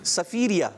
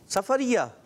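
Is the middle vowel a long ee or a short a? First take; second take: long ee; short a. First: The middle vowel is a long ee. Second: The middle vowel is a short a. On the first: The speaker calls it right. "عرف سفیریہ ٹھیک ہے" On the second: The speaker calls it wrong. "سفریہ یہ نیا ہے. سفریہ سفر میں"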